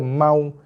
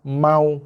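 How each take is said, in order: Both takes have the same delivery.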